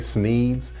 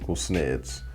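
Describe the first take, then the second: First: The vowel is a long 'ee' sound. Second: The vowel is a short 'eh' sound. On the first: The speaker calls it wrong. "people will say Sneeds" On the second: The speaker calls it right. "I told you it's pronounced Sneds"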